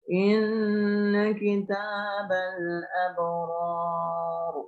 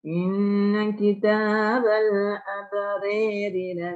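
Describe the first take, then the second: First: The R in abrar is thick and heavy. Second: The R in abrari is thin and light. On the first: It is the reading without vowel leaning. "memberlakukan taklim" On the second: It is the reading with vowel leaning toward e. "roknya harus dibaca tarkik"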